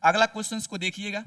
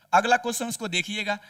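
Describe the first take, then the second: No difference in how they are said.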